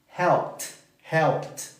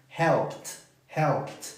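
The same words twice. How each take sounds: No difference in how they are said.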